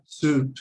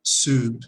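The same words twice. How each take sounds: First: Soup said with a clear long oo and falling tune; model pronunciation. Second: Soup said again with falling tune; model pronunciation. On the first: Teacher showing students how soup sounds. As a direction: say soup carefully, rounding the oo. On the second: Teacher repeating Soup for the class. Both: Shown as a demonstration. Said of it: "la pronunciación en inglés es tan distinta".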